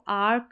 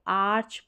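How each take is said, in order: First: The word ends with a 'k' sound. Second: The word ends with a 'ch' sound. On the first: The speaker calls it wrong. "अब इसको आर्क नहीं पढ़ेंगे" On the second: The speaker calls it right. "इसको आर्च पढ़ेंगे।"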